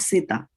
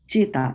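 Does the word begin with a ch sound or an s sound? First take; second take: s; ch. First: The word begins with an s sound. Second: The word begins with a ch sound. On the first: The speaker calls it wrong. "Not S, not seta" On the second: The speaker calls it right. "Cheta, as in chair"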